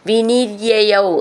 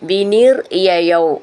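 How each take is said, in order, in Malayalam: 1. വാക്കുകൾ ഇടവേളയില്ലാതെ ചേർന്നൊഴുകുന്നു. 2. 'vinir'-ന് ശേഷം ചെറിയ ഇടവേളയുണ്ട്. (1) "വിനിര്യയൗ എന്നുള്ളത്" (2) "നമ്മൾ വിനീർ യയൗ അങ്ങനെയാണത്"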